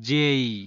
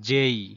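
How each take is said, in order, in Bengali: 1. এটি গড়িয়ে যায়, শেষে 'ঈ' ধ্বনি থাকে। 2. এটি গড়িয়ে যায়, শেষে 'ঈ' ধ্বনি থাকে।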